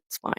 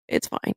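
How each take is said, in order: First: Said in the usual way. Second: It's fine, dropped far softer; much softer repeat. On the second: Retold or imitated. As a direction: let the second one fall away to near nothing. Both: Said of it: "And I said".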